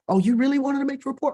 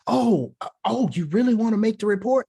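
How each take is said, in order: First: It is said in a friendly, warm way. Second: It is said in an unfriendly, flustered way.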